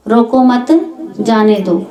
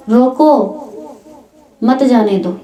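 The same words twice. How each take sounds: First: "रोको मत", short break, then a falling "जाने दो"; pause after मत. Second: "रोको" alone, long pause, then "मत जाने दो"; pause after रोको. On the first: Speaker repeats the phrase meaning let him go, pause after मत. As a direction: keep मत joined to रोको, pause before जाने दो. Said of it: "यही शब्द हैं". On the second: Same words repeated to mean stop him, pause after रोको. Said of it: "दोबारा बोल दिया". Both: Shown as a demonstration.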